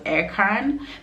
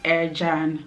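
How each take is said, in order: First: The name is read the English way. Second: The name is read the Turkish way. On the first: The speaker calls it wrong. "everyone who comes pronounces it as Erkan because it's literally E R C A N" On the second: The speaker calls it right. "it's Turkish and it's pronounced Ercan"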